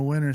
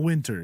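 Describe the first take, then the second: First: "winter" said as "winner", T silent; dropped T. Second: "winter" with a clear T; pronounced T. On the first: Showing the Northwest accent, "winter" without its T. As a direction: drop the T in "winter". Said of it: "Like, I say winter". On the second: Showing what he doesn't say, "winter" with its T. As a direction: sound the T in "winter". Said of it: "not winter". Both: Shown as a demonstration.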